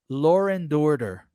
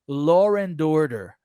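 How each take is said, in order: First: An r sound links law and and. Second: An r sound links law and and.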